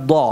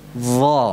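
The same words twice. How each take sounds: First: Dha pulled back, sounding like do; wrong dha. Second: Dha with the tongue tip touching the upper teeth edge; correct dha. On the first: Teacher contrasts the wrong dha. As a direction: show the mistaken dha. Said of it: "bukan dha". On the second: Teacher models the right Dha. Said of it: "Itu yang benar". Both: Shown as a demonstration.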